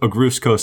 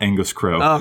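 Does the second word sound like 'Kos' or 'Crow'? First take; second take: Kos; Crow. First: The name ends with a short 'Kos' sound. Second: The name ends with a 'Crow' sound. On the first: The speaker calls it right. "It's Agruus Kos" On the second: The speaker calls it wrong. "not Angus Crow"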